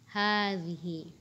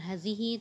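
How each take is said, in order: First: The first vowel is said long. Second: The first vowel is said short. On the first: The speaker calls it right. "tetapi hadhihi" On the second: The speaker calls it wrong. "bukan hazihi"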